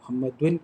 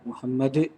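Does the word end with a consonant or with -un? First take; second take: -un; consonant. First: The word ends with an added -un syllable. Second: The word ends with a bare consonant. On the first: The word is read on without stopping. "മുഹമ്മദുൻ എന്നല്ല" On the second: The reader stops on this word. "മുഹമ്മദ് എന്ന് പറയലുണ്ട്"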